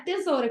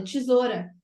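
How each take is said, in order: First: "tesoura" with hard t and full e; clear-e tesoura. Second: "tesoura" corrected to tchi-ZO-ra; softened-t tesoura. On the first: ("tesoura" com te bem pronunciado) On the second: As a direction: say "tesoura" with a chi sound at the start. ("tesoura" com som de tchi) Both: Retold or imitated. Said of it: "falar pra mim, "Não, não é tesoura".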